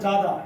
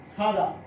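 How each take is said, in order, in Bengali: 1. প্রথম ধ্বনিটি ঘোষযুক্ত j। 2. প্রথম ধ্বনিটি অঘোষ ch-সদৃশ ধ্বনি। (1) "নো জাদা" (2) "ছয়ের মতো উচ্চারিত হবে"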